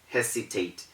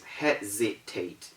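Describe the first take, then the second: First: The middle consonant is a hissing s sound. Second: The middle consonant is a buzzing z sound. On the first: The speaker calls it wrong. "It's not hesitate" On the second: The speaker calls it right. "The word is hesitate"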